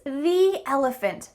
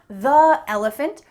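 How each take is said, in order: First: 'The' is pronounced 'thee' with a long vowel. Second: 'The' is pronounced 'thuh' with a short vowel. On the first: The speaker calls it right. "It's the elephant" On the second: The speaker calls it wrong. "not the elephant"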